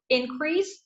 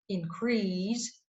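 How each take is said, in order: First: The stress is on the first syllable. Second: The stress is on the second syllable. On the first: It is used as a noun. "noun, the stress will be put on the first syllable" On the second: It is used as a verb. "verb, so the stress will go to the second syllable"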